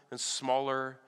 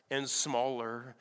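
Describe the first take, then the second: No difference in how they are said.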